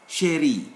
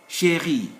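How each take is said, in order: No difference in how they are said.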